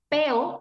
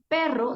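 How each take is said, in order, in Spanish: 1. El sonido r se omite por completo. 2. La palabra tiene su sonido r normal. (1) "el niño que no pronuncia el sonido" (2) "En lugar de decir perro"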